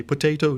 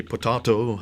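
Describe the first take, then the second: First: Potato with a long AY, po-TAY-to; potato rhyming its middle with day; American pronunciation. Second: Potato with a broad AH, po-TAH-to; British pronunciation. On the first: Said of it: "In America, we say potato". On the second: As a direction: say potato with AH in the middle. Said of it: "So the British say potato". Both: Shown as a demonstration.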